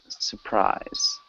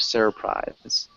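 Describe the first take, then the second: First: The first R sound is dropped. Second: The first R sound is pronounced. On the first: "we don't really, like I said before, pronounce that first R. So it sounds more like surprise" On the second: "instead of surprise"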